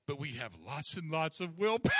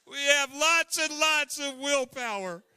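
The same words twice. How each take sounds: First: Said in the usual way. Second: Higher and louder, proud and laughing-through; booming repeat. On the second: Shown as a demonstration. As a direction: announce it proudly to the room.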